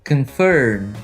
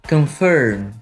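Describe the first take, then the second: Both takes have the same delivery.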